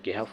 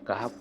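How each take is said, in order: First: The first vowel is a front e. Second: The first vowel is an open a. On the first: The speaker calls it wrong. "कोहफ या केहफ वगैरह नहीं पढ़ते हैं" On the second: The speaker calls it right. "सूरा कहफ पढ़ते हैं"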